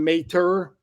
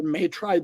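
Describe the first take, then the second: First: "Mater" said slowly as a tentative surname; first pronunciation attempt. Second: "Maitre" offered as the other reading of the surname; alternative pronunciation attempt. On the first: Host guessing a rookie's surname, "Mater" as first attempt. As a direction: try the name as "Mater", slowly. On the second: Host unsure of a rookie's surname, "Maitre" as alternative guess. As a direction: try the name as "Maitre", unsure. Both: Shown as a demonstration. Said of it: "not sure exactly how you pronounce".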